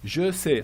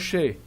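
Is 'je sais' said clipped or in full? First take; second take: full; clipped. First: Both syllables are said fully and clearly. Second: It is squeezed into one short 'shay' sound.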